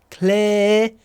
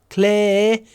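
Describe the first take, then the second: Both takes have the same delivery.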